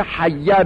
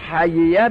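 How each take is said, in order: First: حیه said hayya, the two ya merged into one doubled ya; teacher shows the merged reading حیه, one stressed ya. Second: حییه said hayiya, the two ya sounds kept separate; teacher shows the fakk reading حییه, ya split in two; unmerged hayiya. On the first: Teacher demonstrating the merged reading to students, careful pronunciation. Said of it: "هم به ادغام". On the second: Teacher demonstrating the unmerged reading to students, careful pronunciation. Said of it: "جایز است به فک ادغام بخونید". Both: Shown as a demonstration.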